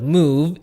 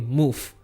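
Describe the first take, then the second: First: The word ends with a voiced v sound. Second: The word ends with a voiceless f sound. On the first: "instead of move" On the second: "change it to a softer sound, which would be F"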